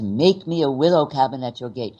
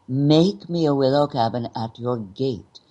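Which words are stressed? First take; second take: every word; make, gate. First: Every word gets equal strong emphasis. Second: Only the first and last words are emphasized. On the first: The meaning of the line gets lost. The speaker calls it wrong. "Every single word is emphasized" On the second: The meaning of the line comes through. The speaker calls it right. "Make gate. Those are the two most important words"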